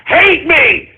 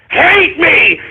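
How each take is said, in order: Both takes have the same delivery.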